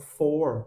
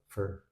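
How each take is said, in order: First: The word is said with its full vowel. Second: The word is said weakly with a reduced vowel.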